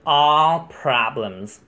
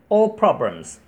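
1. all 中的元音是长音，美式发音。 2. all 中的元音是短音，英式发音。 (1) "美式是" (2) "如果是英式的话它是短音"

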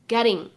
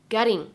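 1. 中间的 t 是快速的闪音。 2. 中间的 t 是快速的闪音。

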